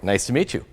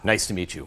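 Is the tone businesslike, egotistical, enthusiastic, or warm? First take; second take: enthusiastic; egotistical. First: It is said with lively, bubbly enthusiasm. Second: It is said with self-important, ego-driven energy. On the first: The speaker is excited to connect. "that parrot enthusiasm" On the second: The speaker is focused on themselves. "you could feel that ego energy"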